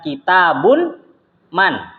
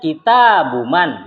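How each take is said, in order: First: The word ends with an added n before man. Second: The word ends in a plain vowel before man. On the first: The speaker calls it wrong. "bukan kitabun man" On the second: The speaker calls it right. "Makanya ngomongnya kitabuman"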